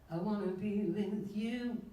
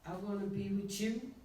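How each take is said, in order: First: The word 'you' starts with a 'y' sound. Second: The word 'you' starts with a 'ch' sound. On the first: "instead of" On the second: "Chew. Everything she would say, instead of saying you"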